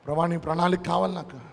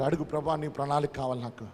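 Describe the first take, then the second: First: Said in the usual way. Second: Hushed prayer. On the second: Shown as a demonstration. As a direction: drop to a soft, prayerful hush on ప్రణాళిక. Quiet prayer, then repeated louder.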